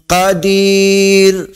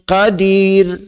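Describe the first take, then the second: First: The vowel before the final r is medium length. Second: The vowel before the final r is short. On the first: "Kalau empat" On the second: "Dua harakah pendek je"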